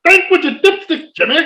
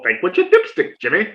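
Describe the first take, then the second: First: High hammed-up ad yell; commercial shout. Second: Lightly voiced, smug calm catchphrase; teasing repeat. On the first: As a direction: bellow the catchphrase like the TV spot. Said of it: "I bring up the old commercial". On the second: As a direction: needle her by repeating it coolly. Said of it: "Stop saying that".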